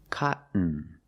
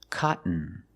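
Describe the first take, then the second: No difference in how they are said.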